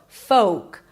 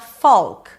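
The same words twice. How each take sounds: First: The L is silent, with a long O. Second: The L sound is pronounced in the word. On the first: The speaker calls it right. "There is no L, and the O is a long O as in go" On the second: The speaker calls it wrong. "It is not folk. There is no L"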